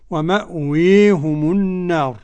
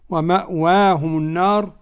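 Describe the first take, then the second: First: The long vowel is raised strongly toward i. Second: The long vowel is halfway between a and i. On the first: "الإمالة الكبرى" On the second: "التقليل"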